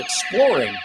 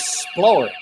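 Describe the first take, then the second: First: The word begins with an 'ex' sound. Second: The word begins with an 's' sound. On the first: The speaker calls it right. "he doesn't go exploring" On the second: The speaker calls it wrong. "He goes sploring"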